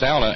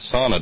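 First: The first vowel sounds like 'ow' in 'now'. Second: The first vowel sounds like 'aw' in 'saw'. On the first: The speaker calls it right. "if it's sauna" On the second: The speaker calls it wrong. "and not sauna"

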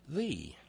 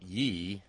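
First: The word begins with a th sound. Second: The word begins with a y sound. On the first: The speaker calls it right. "in Elizabethan English is actually pronounced thee" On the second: The speaker calls it wrong. "often pronounced Ye by people who don't know better"

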